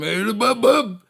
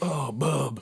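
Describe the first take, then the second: First: It is said in an angry way. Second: It is said in a sad way.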